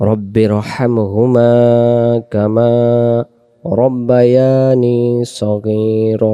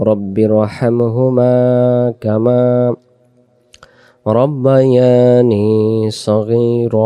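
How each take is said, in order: No difference in how they are said.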